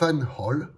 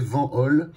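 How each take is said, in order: First: The name is said with a German pronunciation. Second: The name is said with a French pronunciation. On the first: "en allemand, ça ferait" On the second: "je le prononce en français"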